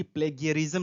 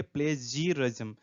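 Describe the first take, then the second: First: प्लेगियरिज्म said with a hard g, ple-gi-ya-rism; the wrong way, प्लेगियरिज्म with a hard g sound; wrong pronunciation. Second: The right way, प्लेजियरिज्म with a j sound; correct pronunciation. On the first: Teacher showing students the common mistake, प्लेगियरिज्म with a hard g. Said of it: "pronunciation ध्यान देंगे, न कि प्लेगियरिज्म नहीं बोलेंगे". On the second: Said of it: "pronunciation ध्यान देंगे". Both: Shown as a demonstration.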